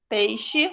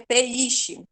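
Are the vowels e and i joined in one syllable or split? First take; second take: joined; split. First: The two vowels are run together as one syllable. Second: The two vowels are split into separate syllables. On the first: The speaker calls it right. "o E e o I continua junto" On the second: The speaker calls it wrong. "Senão ficaria peixe"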